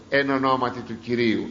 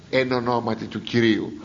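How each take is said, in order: Both takes have the same delivery.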